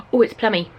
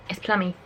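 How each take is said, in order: First: Louder, delighted "Oh, it's plummy"; thrilled at the colour; excited. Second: Said in the usual way. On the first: Real, not acted.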